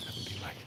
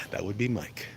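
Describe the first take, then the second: First: Whispered "That would be Mike"; whispering. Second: Said in the usual way. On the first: Real, not acted. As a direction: breathe "That would be Mike" unvoiced. Repeats joke line whispered.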